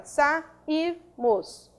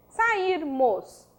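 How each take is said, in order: First: "sairmos" split as sa - ir - mos; syllable by syllable. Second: Said in the usual way. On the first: Shown as a demonstration. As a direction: pause between sa, ir and mos. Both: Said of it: "Quando eu separo a sílaba".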